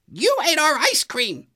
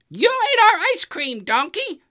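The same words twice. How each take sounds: First: Very high, loud angry accusation; angry Goose. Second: Even higher, louder furious repeat; angrier Goose. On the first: Goose confronting Donkey over the ice cream, angry. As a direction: scold him for eating it all. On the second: Goose confronting Donkey over the ice cream, angrier. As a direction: let the anger climb on the repeat. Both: A narrator's reading. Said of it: "called Goose with an angry voice".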